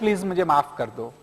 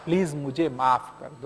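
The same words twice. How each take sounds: First: The apology sounds casual and offhand. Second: The apology sounds sincere and heartfelt. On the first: The apology is not really meant. The speaker calls it wrong. "ऐसे नहीं" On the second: The apology is truly meant. The speaker calls it right. "दिल से कहो"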